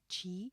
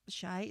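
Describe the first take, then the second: First: The word sounds like 'chee'. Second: The word sounds like 'shy'. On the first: It means a person's life force. "if you pronounce it like chi, it is um, the the life spirit" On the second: It is slang for Chicago. "I think shy is that slang for like Chicago"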